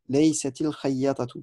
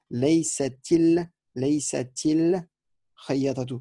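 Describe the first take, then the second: First: Said in the usual way. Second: "Laysatil" drawn out slowly with a clear i before the lam; slow linking i. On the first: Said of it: "vous devez dire". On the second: Shown as a demonstration. Teacher slowing down so students hear the linking i. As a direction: stretch "laysatil" so the added i and the lam ring out. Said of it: "On doit l'entendre".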